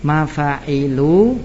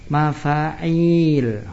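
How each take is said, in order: First: MAFA'ILU slowly, short i after the ain, drawn-out ending; slow model of MAFA'ILU, short i, lingering last vowel. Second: MAFA'IL with the i after the ain held long. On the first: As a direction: sound out MAFA'ILU with a short i and a long final u. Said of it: "mim fa alif ain lam ya". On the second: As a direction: stretch the last vowel of MAFA'IL into a long ee. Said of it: "mim fa alif ain ya lam". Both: Shown as a demonstration.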